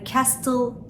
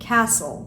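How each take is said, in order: First: The T sound is pronounced in the word. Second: The T sound is left out of the word. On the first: The speaker calls it wrong. "Yani castle değil" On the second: The speaker calls it right. "T harfi"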